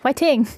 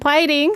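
First: The word begins with an H sound. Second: The word begins with a P sound. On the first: "But I would go like, whiting" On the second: "the piting is the correct way to say it"

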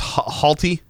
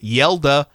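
First: The name begins with an H sound. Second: The name begins with a Y sound. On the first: The speaker calls it wrong. "So it's Halte Froholt" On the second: The speaker calls it right. "they give you Yelda"

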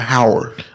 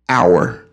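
First: The word starts with an audible H sound. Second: The word starts with a vowel, no H sound. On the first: The speaker calls it wrong. "it's not Howard" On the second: The speaker calls it right. "H is silent"

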